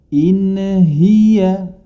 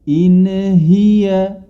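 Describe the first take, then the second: The two takes are said the same way.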